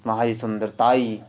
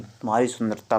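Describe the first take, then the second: First: "सुंदरताई" with an ee tacked on; wrong form demonstrated. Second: "सुंदरता" closing on plain taa; correct form demonstrated. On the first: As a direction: finish "सुंदरताई" with taa-ee. ("सुंदरताई" में फालतू ई) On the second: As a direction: finish "सुंदरता" without any ee. ("सुंदरता" बिना ई के) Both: Shown as a demonstration. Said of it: "तुम्हारी सुंदरताई नहीं".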